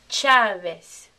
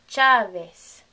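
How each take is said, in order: No difference in how they are said.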